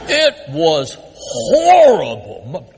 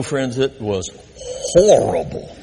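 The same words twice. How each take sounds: First: It was horrible, very slow and louder, leaning on horrible; stress on horrible. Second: Said in the usual way. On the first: Real, not acted. Pastor repeating to the congregation how bad it was, slow and heavy. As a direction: drag out every word of horrible for weight.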